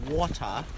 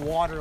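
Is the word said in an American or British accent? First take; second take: British; American. First: The word is said in a British accent. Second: The word is said in an American accent.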